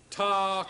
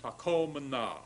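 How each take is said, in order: First: Takomna called out high and loud, accent on the second syllable; Hebrew form takomna. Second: Takomna said again at normal pitch, even and deliberate; careful repeat. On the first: Teacher calls out the new form takomna, higher and louder. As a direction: announce takomna brightly to the class. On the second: Teacher repeats takomna calmly so students catch it. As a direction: repeat takomna plainly for the class to copy. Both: Shown as a demonstration. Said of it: "And now look at this next form".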